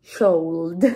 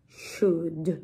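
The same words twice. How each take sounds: First: "should" with the L sounded, like "shold"; mispronounced. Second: "should" said slowly with a silent L, like "shood"; low, careful "should", rhyming with "good"; model pronunciation. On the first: Teacher joking about how learners misread it, mispronounced. Mock wrong reading, then laughs. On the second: Teacher introducing today's tricky little word, model pronunciation. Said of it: "cómo se pronuncia". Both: Shown as a demonstration.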